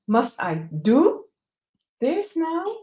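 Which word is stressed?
do. The stress falls on the word do.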